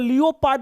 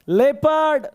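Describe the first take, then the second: First: It begins with 'lee-oh' and ends 'pard'. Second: It begins with 'leh' and ends 'perd'. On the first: The speaker calls it wrong. "इसको लियोपार्ड नहीं बोलते हैं" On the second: The speaker calls it right. "इसको बोलते हैं लेपर्ड"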